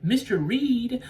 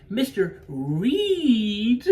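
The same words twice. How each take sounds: First: Teasing "Mister Reed?", higher and drawn out; quoted teasing. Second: "Reed" stretched very long, pitched high and loud; punchline stress on REED. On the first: Paxton teasing Hugh Grant about his name, mock teasing. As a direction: call the name slowly, pitched up. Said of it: "She's like". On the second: Paxton landing the joke on his name, exaggerated stretch on "Reed". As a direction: hold "Reed" out in a high, rising swell. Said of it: "There's a fucking joke". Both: Retold or imitated.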